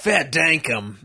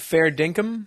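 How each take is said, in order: First: "Fair dinkum" in put-on broad Australian; Australian accent. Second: Said in the usual way. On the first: Shown as a demonstration. Demonstrates slang in Australian accent.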